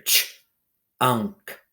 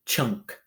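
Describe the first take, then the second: First: "Ch-unk" split, gap after the ch; sounding out. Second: Said in the usual way. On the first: Shown as a demonstration. Teacher letting pupils hear the letters, sounds held apart. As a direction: say "Ch-unk" as two separate pieces. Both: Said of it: "Write down the letters you hear".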